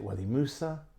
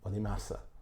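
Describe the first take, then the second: First: The second word is said as Musa. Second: The second word is said as Massa. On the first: This is how the other person says it. "He says Wadi Musa" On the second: This is how the speaker was taught to say it. "I was taught Wadi Massa"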